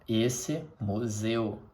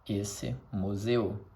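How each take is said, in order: Both takes have the same delivery.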